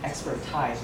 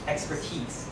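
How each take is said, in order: First: The last syllable does not use an E sound. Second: The last syllable uses an E sound. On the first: The speaker calls it wrong. "you get one syllable wrong" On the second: The speaker calls it right. "It's actually the sound of an E"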